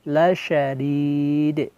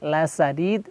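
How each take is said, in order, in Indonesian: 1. Huruf tengah adalah bunyi sh. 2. Huruf tengah adalah bunyi s biasa. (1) "Tapi dengan shin besar, lasyadid" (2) "baca menjadi sin, huruf sin, lasadid. Salah ya, keliru"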